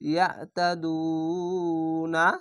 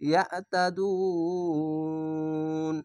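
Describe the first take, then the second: First: The word ends with a final na syllable. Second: The word ends on n, with no vowel. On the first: The reader continues without stopping. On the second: The reader stops at this word.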